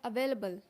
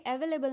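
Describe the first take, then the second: First: "अवेलेबल" said uh-VAIL-uh-bul; reduced start, stressed VAIL in "अवेलेबल"; correct pronunciation. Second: "अवेलेबल" said E-ve-le-bul; four even syllables, "अवेलेबल" starting with "e"; wrong pronunciation. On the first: Teacher corrects learners, "अवेलेबल" as uh-VAIL-uh-bul. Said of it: "ये होता है अवेलेबल". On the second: Teacher shows the common error, "अवेलेबल" as E-ve-le-bul. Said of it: "ये अवेलेबल नहीं होता है". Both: Shown as a demonstration.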